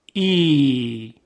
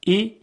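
First: Long, held ای; stretched vowel. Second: Short ای, cut off quickly; brief kasra sound, not drawn out; short vowel. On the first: Teacher showing kasra turned long, vowel stretched. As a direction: draw ای out into a sustained ee. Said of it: "کشیده بشه". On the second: Teacher showing kasra before stretching, short vowel. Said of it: "صدای کسره". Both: Shown as a demonstration.

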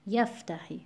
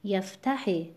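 First: یفتحی with the first syllable stressed; YAF-tahi for یفتحی. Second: یفتحی wrongly stressed on "ta"; yaf-TA-hi for یفتحی; misplaced stress. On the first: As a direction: keep "tahi" light in یفتحی. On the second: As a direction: move the weight off the first syllable of یفتحی. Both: Shown as a demonstration. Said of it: "نباید بخونیم".

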